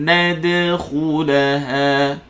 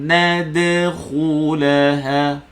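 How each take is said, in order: No difference in how they are said.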